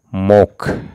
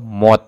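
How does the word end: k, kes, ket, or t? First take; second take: k; t. First: The word ends with a k sound. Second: The word ends with a t sound. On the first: The speaker calls it right. "tapi mok" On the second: The speaker calls it wrong. "atau mot"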